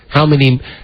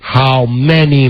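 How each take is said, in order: First: The words are spoken at a normal pace. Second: The words are spoken noticeably more slowly.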